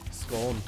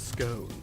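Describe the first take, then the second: First: The word is said the Scottish way. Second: The word is said the English way. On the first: "scone is more uh, Scottish" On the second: "English is scone"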